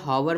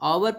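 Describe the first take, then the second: First: The word begins with an h sound. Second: The word begins with a vowel sound. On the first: The speaker calls it wrong. "कुछ लोग कहेंगे हावर में तो बॉबल नहीं है" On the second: The speaker calls it right. "ऑवर पढ़ते हैं भैया, ये एच साइलेंट"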